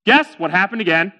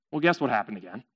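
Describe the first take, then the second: First: Said in the usual way. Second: Low, soft storyteller's question; hushed teaser. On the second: A narrator's reading. Storyteller to listeners, hushed teasing. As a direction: ask it quietly, knowingly.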